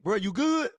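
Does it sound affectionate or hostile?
hostile. It sounds hostile and ready to fight.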